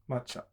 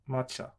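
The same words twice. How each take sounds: The two takes are said the same way.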